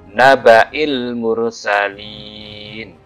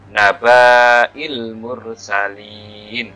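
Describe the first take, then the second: First: The vowel after the b is short. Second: The vowel after the b is long. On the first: The speaker calls it right. "cukup dibaca pendek" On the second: The speaker calls it wrong. "Kalau baknya dibaca panjang berarti begini"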